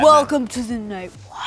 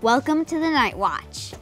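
First: It is said in a deep Batman voice. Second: It is said in his natural voice.

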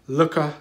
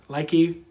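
First: The name ends in an 'ah' sound. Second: The name ends in an 'ee' sound. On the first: This is believed to be the proper pronunciation. The speaker calls it right. "I believe, is the pronunciation" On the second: This is how many people say it. The speaker calls it wrong. "That's how people pronounce it"

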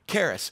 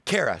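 First: The name ends with an s sound. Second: The name ends without an s sound. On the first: The speaker calls it right. "it was all Karis" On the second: The speaker calls it wrong. "I mispronounce it on purpose"

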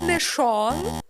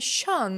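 First: The vowel is a plain back o. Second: The vowel is a front rounded umlaut ö. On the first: The speaker calls it wrong. "Не шун, не шон" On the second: The speaker calls it right. "а саме schön"

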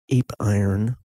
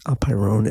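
First: It sounds like the English words ape and iron. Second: It sounds like a single foreign word. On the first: The speaker calls it wrong. "Looks like ape iron" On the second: The speaker calls it right. "the correct pronunciation is apeiron"

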